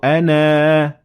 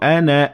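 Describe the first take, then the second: First: The final vowel is held long. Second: The final vowel is short. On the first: The reading stops at this word. "if you stop at the word, you will have to pronounce the alif" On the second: The reading continues past this word. "I didn't pronounce the alif when I continued reading"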